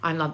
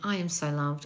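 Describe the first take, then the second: First: It is said flatly, without feeling. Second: It is said with heartfelt conviction.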